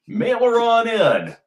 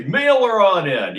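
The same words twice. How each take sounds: First: Higher, louder call of mail her on in; hammed-up sign-off. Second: Hammed-up sign-off. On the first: Host pitching for donations, hammed-up call. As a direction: sing out mail her on in like an old ad. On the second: Host repeating his donation call, louder. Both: Shown as a demonstration. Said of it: "That's what I'm gonna say".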